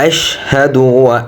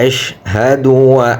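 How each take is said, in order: No difference in how they are said.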